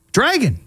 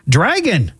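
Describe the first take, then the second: First: Dragon lifted high and falling, amused; amused high repeat. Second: Said in the usual way. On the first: Shown as a demonstration. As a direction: say Dragon again, higher with a grin. Amused repeat, much higher.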